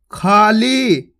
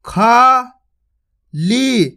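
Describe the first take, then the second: First: Said in the usual way. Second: खाली drawn out very slowly; very slow sounding-out of खाली; slow spelled-out reading. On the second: Shown as a demonstration. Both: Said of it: "आपको इसी तरीके से पढ़ना".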